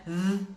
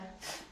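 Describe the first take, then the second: First: It is the th sound heard in 'there'. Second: It is the th sound heard in 'thick'. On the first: "There and thick" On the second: "There and thick"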